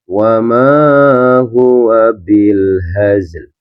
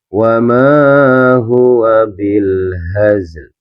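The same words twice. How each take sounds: First: The final L sound is clearly pronounced. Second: The final L sound is clearly pronounced.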